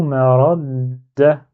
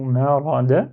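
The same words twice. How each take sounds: First: MA RA DA with the d closed and held, then a firm "da"; blocked on shadda. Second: "ma ra da" as three open syllables with a single d; without shadda. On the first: Teacher showing how shadda blocks the fatha, doubled d. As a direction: block on the d after "ra", then release it loudly. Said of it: "elle est là pour me bloquer". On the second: Teacher showing the word with shadda erased, simple d. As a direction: let each vowel sound, no hold on the d. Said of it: "Si j'efface le shadda, du coup". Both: Shown as a demonstration.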